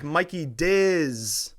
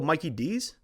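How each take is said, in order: First: The last part sounds like 'Diz'. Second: The last part sounds like 'Dees'. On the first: The speaker calls it wrong. "or like Mikey Diz?" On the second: The speaker calls it right. "thank you for pronouncing it right"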